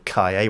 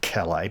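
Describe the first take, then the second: First: The name is said in a Spanish way. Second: The name is said in a non-Spanish way. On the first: The speaker calls it right. "it's actually Calle, which is Spanish for the word street" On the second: The speaker calls it wrong. "I'm sure some people would say Calais"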